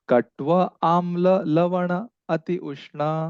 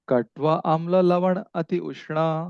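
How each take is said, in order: First: The line is read slowly. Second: The line is read at a normal pace.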